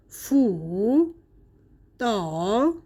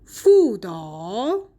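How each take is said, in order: First: "فو" and "دا" as separate dipping syllables; unchanged tone three on both "فو" and "دا"; two third tones. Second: "فودا" joined, second tone then dipping third; slowly drawn "فودا", rising at the end; tone two plus three. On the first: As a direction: give "فو" and "دا" each a full third tone. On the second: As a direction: sandhi demo of "فودا" as tones two-three. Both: Shown as a demonstration.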